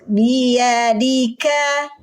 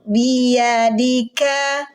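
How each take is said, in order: No difference in how they are said.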